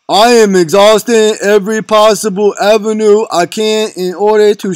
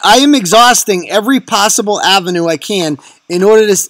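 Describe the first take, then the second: First: It is read in a put-on, slurred character voice. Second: It is read in the speaker's normal voice.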